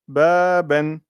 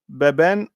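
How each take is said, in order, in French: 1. La première voyelle est longue. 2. La première voyelle est courte. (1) "quand je mets la prolongation" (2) "Imaginez que je n'ai pas la prolongation là... je dirais baben"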